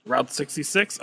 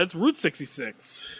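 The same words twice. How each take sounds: First: "Route" said like "rout", questioning; "Route" with an OW vowel; route rhyming with out. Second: "Route" said like "root"; "Route" with an OO vowel, correcting. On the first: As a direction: say "Route" to rhyme with "out". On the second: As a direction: say "Route" to rhyme with "boot". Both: Shown as a demonstration. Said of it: "no, no, it's Route sixty-six".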